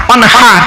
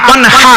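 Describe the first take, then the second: The two takes are said the same way.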